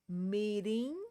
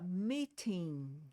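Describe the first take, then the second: First: The t sounds like a quick r flap. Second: The t is pronounced as a clear t. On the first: "o T tem o som de R" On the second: "também pode ser com som de T mesmo"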